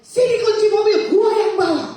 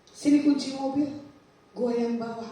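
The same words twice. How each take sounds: First: High, forceful shout, refusing to back down; insistent, loud demand. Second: Said in the usual way. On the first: Retold or imitated. Arguing with younger sibling over car keys, insistent shout. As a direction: demand it loudly, stubbornly. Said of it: "Sambil saya ngotot sama adik saya". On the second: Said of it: "belagu nih".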